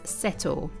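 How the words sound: The t is a clear t, British style. "in Britain, we would say this as"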